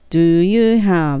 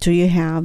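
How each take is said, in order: First: Each word is said separately and distinctly. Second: The words run together in one linked chunk. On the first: The speaker calls it wrong. "Do you have って言うともう典型的日本人の英語になる" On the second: The speaker calls it right. "キュッとくっつけてしまう"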